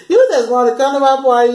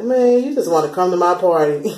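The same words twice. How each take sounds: First: Higher and louder, through laughter; amused laughing repeat. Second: Said in the usual way. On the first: Retold or imitated. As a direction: laugh as you call out the fake apology. Laughing at the fake apology.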